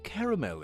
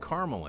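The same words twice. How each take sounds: First: It is said in a British accent. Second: It is said in an American accent. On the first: "I think it's a British vers- versus American English thing" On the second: "I think it's a British vers- versus American English thing"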